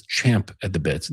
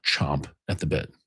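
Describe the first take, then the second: First: "champ" with the short a of cat; champ, not chomp. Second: "chomp" with an open o, dropped lower and softer; chomp, the rejected form. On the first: Correcting listeners on the phrase, "champ" pronounced with a short a. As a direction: say "champ" clearly, vowel as in "cat". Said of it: "the phrase is champ at the bit". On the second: Showing listeners the mistaken phrase, "chomp" pronounced with an open o. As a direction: say "chomp" with the vowel of "stomp". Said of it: "not chomp at the bit". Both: Shown as a demonstration.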